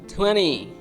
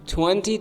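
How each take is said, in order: First: The T after the N is left out. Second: The T after the N is pronounced.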